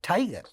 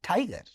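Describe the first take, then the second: No difference in how they are said.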